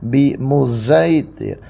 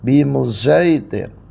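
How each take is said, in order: First: The s sound is blended toward z. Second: The s sound is blended toward z.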